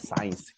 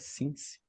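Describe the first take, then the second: First: The vowel sounds like 'eye', as in science. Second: The vowel sounds like short 'ih', as in sit. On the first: The speaker calls it wrong. "ela falava science" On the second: The speaker calls it right. "a pronúncia certa é since"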